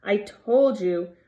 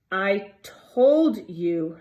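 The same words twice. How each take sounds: First: Breathless, a bit slow, louder; gasping. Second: Slow, breathless, gasped out; gasping. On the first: Hermione out of breath, repeating it to the boys, gasping. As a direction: gasp it out again, out of breath. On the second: Hermione gasping at the boys after the sprint, breathless. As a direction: push it out between gasps. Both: A narrator's reading. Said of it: "Hermione gasped".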